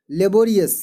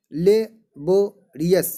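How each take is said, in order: First: Said in the usual way. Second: लेबोरियस split as ले, बो, रियस with pauses; लेबोरियस broken into separate chunks for learners; syllable by syllable. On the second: Shown as a demonstration. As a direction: say लेबोरियस very slowly in three pieces. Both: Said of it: "इसमें खंड खंड मिल करके".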